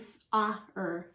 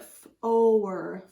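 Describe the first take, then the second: First: The vowel is a short A before R. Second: The vowel is a long O before R. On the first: The speaker calls it wrong. "If it followed the closed syllable rules, it would be" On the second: The speaker calls it right. "it sounds like a long O"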